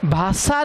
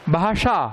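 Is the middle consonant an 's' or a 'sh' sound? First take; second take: s; sh. First: The middle consonant is a dental 's'. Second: The middle consonant is a retroflex 'sh'. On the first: The speaker calls it wrong. "भाषा नहीं होती" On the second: The speaker calls it right. "ये मूर्धन्य श है, ये दंती स नहीं है"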